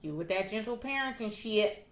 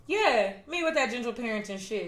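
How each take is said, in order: First: Softly dismissive teasing, retold; mild mockery. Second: Owning it at normal volume; unapologetic retort. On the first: Parents laughing at daughter's parenting, soft mocking imitation. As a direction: tease it under the level of normal talk. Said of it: "my parents laugh at me". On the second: Retold or imitated. Daughter answering her teasing parents, matter-of-fact unapologetic retort. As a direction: throw the jab back, claiming it as yours. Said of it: "And I'm like".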